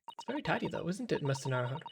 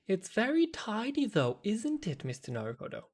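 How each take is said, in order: First: It is read in a plain, neutral tone. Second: It is read in a pointed, knowing tone.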